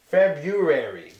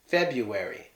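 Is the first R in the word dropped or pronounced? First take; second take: pronounced; dropped. First: The first R sound is clearly pronounced. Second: The first R sound is left out. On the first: The speaker calls it right. "the R should be pronounced. It should be February" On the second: The speaker calls it wrong. "we drop the R and just say February"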